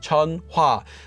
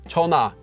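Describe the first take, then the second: First: Said slowly with a light h sound audible. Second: Said at normal speed with the h dropped. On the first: "If you say it very slowly" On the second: "if you're speaking normally, ... it kind of goes away"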